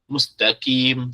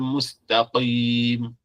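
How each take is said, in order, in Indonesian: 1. Bunyi k dibuat di depan, seperti kaf. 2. Bunyi k dibuat dalam di tenggorokan. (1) "mustaqim dengan kaf, mustaqim, salah" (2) "mustaqim dengan qaf"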